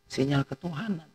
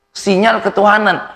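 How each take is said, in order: First: "Sinyal ketuhanan" said much softer, almost dropped; hushed answer; softly. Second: Preached punchline; proclaimed. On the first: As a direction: murmur "Sinyal ketuhanan" as a quiet reminder. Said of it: "tidak kenal apa?". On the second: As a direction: answer it high and loud: "Sinyal ketuhanan" ringing out. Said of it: "dengan apa?". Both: Shown as a demonstration.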